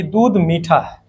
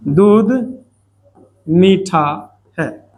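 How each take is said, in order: First: Said in the usual way. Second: दूध, मीठा, है each said alone with a pause between; word-by-word dictation. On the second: Shown as a demonstration. ("दूध मीठा है" शब्द-शब्द रुककर) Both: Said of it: "ये लिखा हुआ है".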